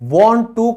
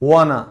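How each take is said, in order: First: Both words are said clearly and in full. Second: The words merge into one reduced word.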